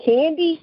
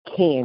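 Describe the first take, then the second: First: High, disbelieving questioning cry; incredulous. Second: Imitating a casual, level answer; matter-of-fact. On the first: Real, not acted. Co-host baffled by her friend's fashion pick, incredulous. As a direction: question the name in total disbelief. Cannot believe the friend picked [name]. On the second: Retelling the friend's choice of fashion pick, matter-of-fact. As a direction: state the name as if it were obvious. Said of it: "so matter-of-factly".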